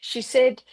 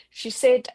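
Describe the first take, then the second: No difference in how they are said.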